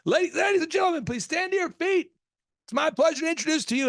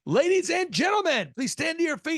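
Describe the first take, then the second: First: A nervous wedding DJ building up the intro; nervous announcer. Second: A DJ on the mic at a wedding, announcing grandly; announcer voice. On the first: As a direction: imitate a DJ about to crack. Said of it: "So he'd go". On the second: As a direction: imitate a DJ's grand intro. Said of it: "he'd get on the mic and he'd say". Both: Retold or imitated.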